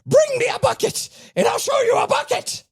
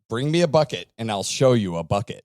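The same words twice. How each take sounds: First: It is said in a put-on character voice. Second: It is read in a plain, ordinary voice.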